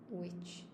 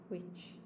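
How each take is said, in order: Both takes have the same delivery.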